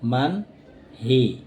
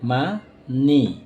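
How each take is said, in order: First: An h sound is heard after the n. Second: The h is silent and n links on. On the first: The speaker calls it wrong. "তাহলে উচ্চারণ হওয়ার কথা" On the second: The speaker calls it right. "বলার ক্ষেত্রে আমরা বলবো মান নি"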